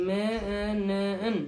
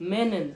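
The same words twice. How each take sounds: First: মেনেন stretched very slowly, syllable by syllable; drawn-out pronunciation. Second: Said in the usual way. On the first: Shown as a demonstration. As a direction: spell out মেনেন slowly, me-nen. (ধীরে ধীরে টেনে মেনেন) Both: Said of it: "আমারটা কিরগিজে হবে".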